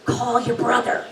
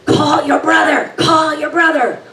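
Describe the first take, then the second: First: Calm dad message. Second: Much higher, louder urgent repeated command; urgent shout. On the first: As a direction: pass on dad's calm nudge. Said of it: "And he says". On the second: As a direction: yell it like it can't wait. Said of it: "his voice gets urgent". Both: Retold or imitated.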